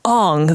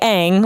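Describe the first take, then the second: First: The name is said with an exotic-sounding affectation. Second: The name is said in a plain, ordinary way. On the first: The name is made to sound foreign and othered. The speaker calls it wrong. "the exotic avatar" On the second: This is the established pronunciation of the name. The speaker calls it right. "like the, the T V show established as canon"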